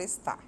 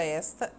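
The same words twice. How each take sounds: First: "está" stressed on final TÁ; "está" as es-TÁ, weak first syllable; stress on last syllable. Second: "esta" stressed on ES, open e; "esta" as ES-ta, weak final syllable; stress on first syllable. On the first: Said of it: "a sílaba forte dela é a última". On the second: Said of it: "a sílaba mais forte é o es". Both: Shown as a demonstration.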